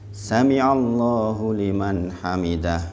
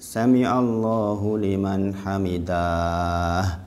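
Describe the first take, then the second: First: The vowel is kept short. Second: A vowel is stretched out long. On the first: The speaker calls it right. "Ini pendek nih" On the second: The speaker calls it wrong. "jangan ... Jangan ini"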